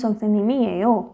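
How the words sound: The final syllable stays smooth and level in pitch. It gives an answer. "बिल्कुल smooth smoothly बोलेगी, हाईली नहीं बोलेगी"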